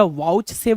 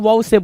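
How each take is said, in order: First: वाउचसेफ said whole, "ch" sounded before "safe"; full pronunciation. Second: वाउचसेफ with the "ch" dropped, "vow-safe"; shortened pronunciation. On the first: Teacher showing the full form some people use, वाउचसेफ with audible "ch". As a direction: pronounce every part of वाउचसेफ: "vowch-safe". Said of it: "पूरा पूरा वाउचसेफ बोलेंगे". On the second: Teacher showing the other common form, वाउचसेफ said without "ch". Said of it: "कुछ लोग वाउचसेफ बोलेंगे". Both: Shown as a demonstration.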